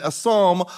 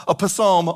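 First: Said in the usual way. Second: "psalm" said jokingly as "puh-SAHM"; sounded P. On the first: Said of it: "the P is silent". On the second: Shown as a demonstration. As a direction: sound the P in "psalm" as its own syllable. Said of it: "so it looks like Psalm".

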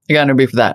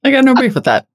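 First: Said in the usual way. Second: High voice. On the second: Acted. Playful voiced line before repeat.

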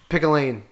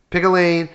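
First: Said in the usual way. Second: "Pick a lane" higher and louder, exasperated; exasperated repeat. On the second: Real, not acted. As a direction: repeat "Pick a lane" with rising annoyance, each word punched.

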